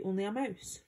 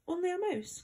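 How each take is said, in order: First: Said in the usual way. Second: High-pitched, offended cry of a little mouse; affronted exclamation, swooping high then falling; indignant. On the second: A narrator's reading. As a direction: echo it back in indignant disbelief, pitch leaping up. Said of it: "cried the little animal indignantly".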